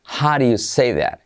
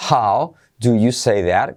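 First: "How do you" run together as "howdya" with a flapped d; "do you" squeezed to a quick "ɾju", native style; native contraction. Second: "How do you say that?" with every word said clearly and slowly; full "do you" said slowly, no contraction; careful full pronunciation. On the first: Teacher shows how natives say it, fast and contracted. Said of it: "los nativos tienden a decirlo así". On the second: Teacher shows students the textbook way, slow and full. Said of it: "está perfecto si dices". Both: Shown as a demonstration.

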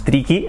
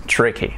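First: "tricky" with a tapped Spanish r and a clear Spanish i, "tri-ki"; wrong Spanish-style pronunciation. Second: "tricky" with an English r and a short lax i, "TRIH-kee"; correct English pronunciation. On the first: Teacher shows Spanish learners the wrong way, Spanish-accented. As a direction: say "tricky" the way a Spanish speaker would, tapped r and pure i vowels. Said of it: "no es tricky". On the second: Teacher shows Spanish learners the right way, in English pronunciation. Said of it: "es tricky". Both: Shown as a demonstration.

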